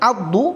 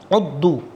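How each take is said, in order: First: The word begins with an 'a' vowel. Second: The word begins with a 'u' vowel. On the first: The speaker calls it right. "dibaca fathah pada ain" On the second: The speaker calls it wrong. "membacanya dengan dhammah adalah keliru"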